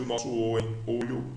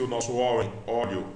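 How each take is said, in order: First: O in "olho" said closed, as oh; close-mid O on "O" and "olho". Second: O in "óleo" said open, as aw; open-mid O on "O" and "óleo". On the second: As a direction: say "óleo" with a wide open O sound. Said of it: "som de O aberto". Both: Shown as a demonstration.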